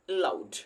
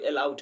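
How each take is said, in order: First: The first syllable carries little stress. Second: The first syllable carries heavy stress. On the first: The speaker calls it right. "ए पर बहुत stress नहीं दिया जाता" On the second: The speaker calls it wrong. "ए पर लोग बहुत stress देता है"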